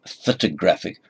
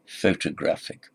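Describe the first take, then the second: First: Photographic with PHO reduced to a weak fuh; fuh-tuh-GRAPH-ic, no stress on the first syllable. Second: Photographic with a full FOH, main stress on GRAPH; FOH-tuh-GRAPH-ic, secondary stress at the start; half stress on first syllable. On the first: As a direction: swallow the first vowel of photographic. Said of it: "It's not, it's not the ph". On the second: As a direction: keep the long O in photographic. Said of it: "the half stress on the first syllable". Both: Shown as a demonstration.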